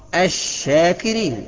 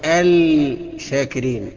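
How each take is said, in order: First: The L blends into the following consonant. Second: The L is pronounced as a separate sound. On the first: The speaker calls it right. "الصح" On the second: The speaker calls it wrong. "النطق الخطأ بتاعه"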